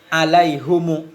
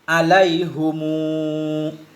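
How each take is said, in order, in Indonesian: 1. Vokal akhir dibaca pendek. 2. Vokal akhir dibaca panjang. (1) "Tanpa waw berarti alaihumu" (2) "dengan waw ba'da dhammah"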